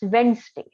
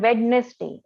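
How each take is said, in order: First: The middle d sound is silent. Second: The middle d sound is pronounced. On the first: The speaker calls it right. "It's Wednesday, right?" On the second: The speaker calls it wrong. "It's not Wednesday"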